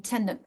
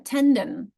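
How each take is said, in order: First: Tendon with a t sound, tenton. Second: Slow tendon with a clear d. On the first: Teacher imitating the northern New York tendon with t. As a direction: swap the d in tendon for a t. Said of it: "added a t sound at the end". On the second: Teacher to class, slow tendon with d. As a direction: lean on the d in tendon. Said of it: "ended in a, a d". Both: Shown as a demonstration.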